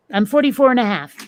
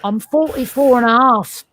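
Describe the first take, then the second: First: A quick, hammed-up fake British accent; bad British accent. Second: Said in the usual way. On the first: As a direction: toss it off in a stupid British voice. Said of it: "tried to do it in a stupid British accent". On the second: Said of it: "I shouldn't have tried to do it in a stupid British accent".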